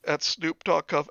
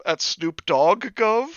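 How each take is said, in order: First: Said in the usual way. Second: "dog" drawn out, rising into a question; slow down and lift "dog gov" in disbelief; higher, slower query on "dog gov"; questioning stress on DOG. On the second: Real, not acted. Puzzled repeat with changed word.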